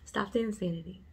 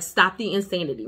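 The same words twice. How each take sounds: First: It is said warmly, with a smile. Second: It is said in a blunt, stern tone.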